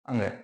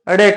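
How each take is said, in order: First: The letter is said like 'ang' with a nasal. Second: The letter is said like 'ade' with a flap. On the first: The speaker calls it right. "ये अड़े न होकर के क्या है? अंग।" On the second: The speaker calls it wrong. "बहुत से बच्चे ऐसे हैं जो इस अंग का उच्चारण यानी अड़े के रूप में करते हैं"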